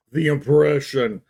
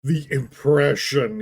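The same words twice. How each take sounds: First: Slow, drawn-out "The impression" with scorn; mock the phrase as if quoting; sarcastic air quotes. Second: Slow, mocking "the impression"; sarcastic air quotes. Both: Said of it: "He's using air quotes without actually air quoting".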